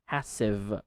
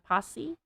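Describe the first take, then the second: First: The final sound of the word is clearly pronounced. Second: The final sound of the word is dropped. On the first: The speaker calls it right. "You say passive, v" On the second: The speaker calls it wrong. "not passy"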